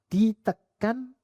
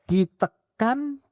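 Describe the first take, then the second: No difference in how they are said.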